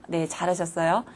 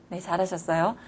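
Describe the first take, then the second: No difference in how they are said.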